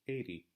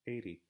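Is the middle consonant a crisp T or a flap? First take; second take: flap; flap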